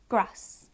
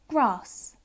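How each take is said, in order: First: "grass" with a short a as in cat; short-vowelled northern "grass"; northern English grass. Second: "grass" with a long ah, as grahss; long-vowelled "grass"; southern English grass. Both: Shown as a demonstration. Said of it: "southern northern divide going on there".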